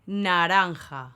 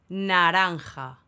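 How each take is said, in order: Both takes have the same delivery.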